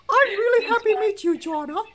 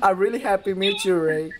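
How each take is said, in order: First: It is said in a Mickey Mouse voice. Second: It is said in his normal voice.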